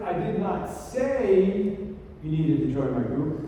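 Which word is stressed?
say. The stress is on the word say.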